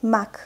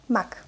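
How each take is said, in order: First: Careful, drawn-out "Mak"; slow reading. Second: Quick, short "Mak"; fast reading. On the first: Teacher models the word for beginners, "Mak" read slowly. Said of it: "I will read this word slowly". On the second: Teacher reads as a native speaker, "Mak" said fast. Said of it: "I will read this word fast". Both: Shown as a demonstration.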